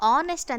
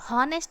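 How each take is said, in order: First: The word starts directly with an o vowel. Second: The word starts with a pronounced h sound. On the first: The speaker calls it right. "ಆನೆಸ್ಟ್ ಅಂತ ಹೇಳ್ತೀವಿ" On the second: The speaker calls it wrong. "ನಾವು ಹಾನೆಸ್ಟ್ ಅಂತ ಹೇಳಲ್ಲ"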